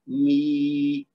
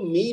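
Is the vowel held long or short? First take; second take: long; short. First: The vowel is stretched to two beats. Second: The vowel is cut short to one beat. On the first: The speaker calls it right. "दो हरकत तक खींच देना है" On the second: The speaker calls it wrong. "इसको मी नहीं कहना, यानी एक हरकत देंगे तो गलत है"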